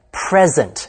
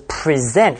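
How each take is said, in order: First: "present" stressed on the first syllable, PRES-ent; noun stress. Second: "present" stressed on the second syllable, pre-SENT; verb stress. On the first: Teacher gives learners the noun, "present" with first-syllable stress. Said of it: "当名词用要读作". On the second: Teacher gives learners the verb, "present" with second-syllable stress. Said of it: "发音也不一样". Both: Shown as a demonstration.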